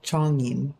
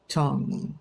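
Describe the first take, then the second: First: The name begins with an English-style ch sound. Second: The name begins with a heavy Korean ch sound. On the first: The speaker calls it wrong. "they would expect either it's going to be Zhongyin or Chongyin, but neither neither of those are right" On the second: The speaker calls it right. "It's Chong Chongyin. It's a subtle difference"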